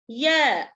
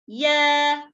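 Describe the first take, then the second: No difference in how they are said.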